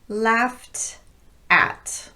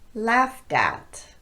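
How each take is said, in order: First: The two words are said separately. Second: The words run together with a light D. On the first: "Unlinked, the words would sound like this" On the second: "But linked, they would sound like this"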